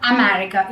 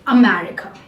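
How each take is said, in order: First: The first vowel is a full long A sound. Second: The first vowel is a short reduced uh sound. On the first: The speaker calls it wrong. "it is not America" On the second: The speaker calls it right. "it is a"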